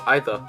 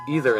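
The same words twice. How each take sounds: First: It is said in a British accent. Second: It is said in an American accent. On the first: "or either in the U K" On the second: "is either in America"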